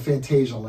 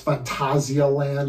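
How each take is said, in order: First: The name is said with an American pronunciation. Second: The name is said with a German pronunciation. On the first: "we're over here in America, so we're saying" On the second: "if you want to give the more German pronunciation"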